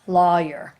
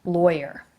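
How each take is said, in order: First: "lawyer" said LAW-yer, open aw then yer; Pittsburgh "lawyer" with an aw sound. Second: "lawyer" with a clear oi vowel, LOY-er. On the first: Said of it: "people who are from Pittsburgh say it this way". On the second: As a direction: stretch the oi in "lawyer". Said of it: "like, an oi sound". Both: Shown as a demonstration.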